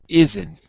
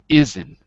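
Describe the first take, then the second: Both takes have the same delivery.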